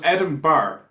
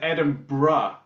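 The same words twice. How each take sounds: First: No r sound comes before the final vowel. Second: An r sound comes before the final vowel. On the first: The speaker calls it right. "so it's Edinburgh" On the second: The speaker calls it wrong. "have put the R before, and and there's no R there"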